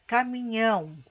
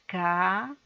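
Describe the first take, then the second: First: Said in the usual way. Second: Syllables said separately. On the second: Shown as a demonstration. Teacher asking pupils to say it separately, "caminhão" syllable by syllable. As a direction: break "caminhão" into three isolated syllables. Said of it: "Falem separadamente".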